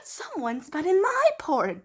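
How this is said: It is said in a Mama Bear voice.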